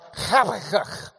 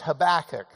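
First: It starts with a rough, throat-clearing h sound. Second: It starts with a plain, soft h sound. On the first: The speaker calls it right. "which has that like he's got to clear his throat" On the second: The speaker calls it wrong. "just the English Habakkuk"

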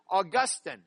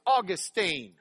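First: The name is said in the Catholic pronunciation. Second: The name is said in the Lubbock, Texas pronunciation. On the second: The speaker is from Lubbock, Texas. "If you're from Lubbock, Texas, it's Augustine"

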